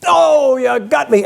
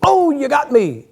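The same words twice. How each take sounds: First: Slow, hammed-up death cry; milk the old Western death line; cowboy hit by a bullet, overplayed and slow; mock dying cowboy. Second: Slow, drawn-out death line; a lightly hammed-up gunshot victim; mock dying cowboy. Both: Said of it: "and the guy goes".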